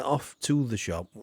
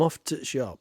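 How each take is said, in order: First: The word 'the' is pronounced in full. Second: The word 'the' is cut to a t sound. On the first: "We don't say off to the shop" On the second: "We just stick a T in front of the shop"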